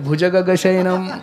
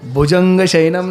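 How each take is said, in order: First: No nasal sound comes before the 'g'. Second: A nasal 'n' sound comes before the 'g'. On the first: The speaker calls it right. "नाही" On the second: The speaker calls it wrong. "बरेचशे वेळेस भुजंगच म्हणतात लोक"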